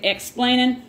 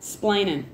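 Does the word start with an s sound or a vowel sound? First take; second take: vowel sound; s sound. First: The word starts with a vowel sound. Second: The word starts directly with an s sound. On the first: "we don't say explaining" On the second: "we just say splaining with an S"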